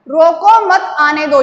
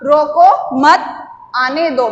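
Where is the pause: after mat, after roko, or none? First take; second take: none; after mat. First: It runs on without any pause inside. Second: A short pause comes after 'mat'. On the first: It is unclear whether to stop him or let him come. "यहां पर स्पष्टीकरण नहीं हो रहा है" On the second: Do not stop him; let him come in. "यहाँ पर या ये थोड़ा सा हम रुके थोड़े समय के लिए"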